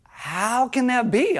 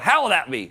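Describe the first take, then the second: First: It sounds sincere and genuinely curious. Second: It sounds cynical and dismissive.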